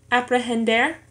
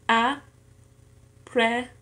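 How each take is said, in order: First: Said in the usual way. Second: Very slow "aprehender", a, pre, hen, der; syllable by syllable. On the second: Shown as a demonstration. Learner showing four syllables in an exercise, "aprehender" syllable by syllable. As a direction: say "aprehender" in four pieces with long pauses. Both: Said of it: "en cuatro sílabas".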